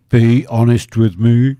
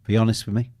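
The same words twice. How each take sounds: First: Louder, slow, drawn-out plea; host pressing Koki to admit the bet failed, mock pleading. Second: Said in the usual way. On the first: Shown as a demonstration. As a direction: lean in and demand the truth, half-joking.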